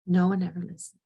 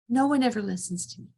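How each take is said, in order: First: Put-on childlike. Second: Angry. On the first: Shown as a demonstration. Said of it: "You hear the, the childlike quality to that". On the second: Retold or imitated. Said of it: "I've really lost my temper".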